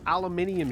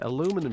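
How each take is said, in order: First: The word is said in the non-American way. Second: The word is said in the American way. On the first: "I can't even say it incorrectly because it's so wrong" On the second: "That's it, aluminum shield"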